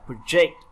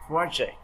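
First: The stress is on the second syllable. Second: The stress is on the first syllable. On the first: It is a verb meaning to plan. "project là lên kế hoạch" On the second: It is a noun meaning a project. "project là cái dự án"

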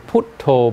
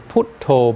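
First: The word is said in a Thai-style pronunciation. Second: The word is said in a Thai-style pronunciation.

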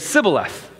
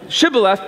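First: The word begins with an 's' sound. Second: The word begins with a 'sh' sound. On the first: This marks the speaker as from the other tribe. "they'd say Sibboleth" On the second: This is how the test word should be said. "they couldn't say the SH"

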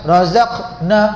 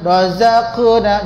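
First: The q sound is swallowed without any bounce. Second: The q sound is released with a clear bounce. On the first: The speaker calls it wrong. "Jangan razaqna. Macam tertelanlah" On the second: The speaker calls it right. "qaf tu ada lantunan"

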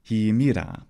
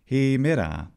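First: Both e vowels are pronounced closed. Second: Only the first long e vowel is closed. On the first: This is the most popular innovative pronunciation. "both of those e vowels were actually e vowels" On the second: This is the majority conservative subdialect's pronunciation. "They had a closed long vowel"

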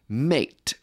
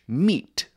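First: The vowel sounds like 'ay'. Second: The vowel sounds like 'ee'. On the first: This is the Middle English pronunciation. "someone speaking Middle English might say mate" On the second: This is the modern English pronunciation. "the modern English meat"

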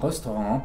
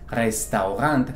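First: It is pronounced with a French-like sound. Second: It is read as plain German spelling. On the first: The speaker calls it right. "sino restaurant, porque viene del francés" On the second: The speaker calls it wrong. "No es restaurant"

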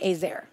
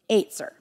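First: It has a plain English-style pronunciation. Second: It has a Hebrew-style pronunciation with a tongue twist. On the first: "I'm going to say Ezer" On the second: "it's pronounced with a little bit of a tongue twist"

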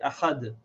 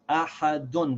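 First: The word ends on a bare d sound. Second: The word ends with a vowel and n sound. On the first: The reader pauses after this verse. "if we stop here, we pronounce this tanween like a sakin" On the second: The reader continues into the next verse. "Ahadun, because I'm continuing"

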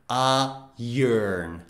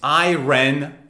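First: The word ends with a soft 'ern' sound. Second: The word ends with a clear 'ron' sound. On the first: The speaker calls it right. "It is iron" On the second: The speaker calls it wrong. "Nope, it's not iron"

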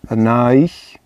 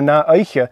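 First: The word ends without a final vowel. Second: The word ends with an extra final vowel. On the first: This is the everyday colloquial form. "in everyday Gaelic and, you know, colloquial Gaelic, oftentimes it's dropped" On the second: This is the fuller form. "There's nothing wrong with putting that E on the end"

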